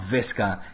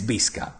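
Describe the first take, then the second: First: The word begins with a V sound. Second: The word begins with a B sound. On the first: The speaker calls it wrong. "It's not Visca" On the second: The speaker calls it right. "The V is pronounced as a B"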